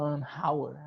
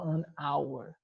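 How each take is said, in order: First: The h at the start of hour is pronounced. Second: The h at the start of hour is silent. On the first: The speaker calls it wrong. "a gente não fala an hour" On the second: The speaker calls it right. "a gente fala an hour"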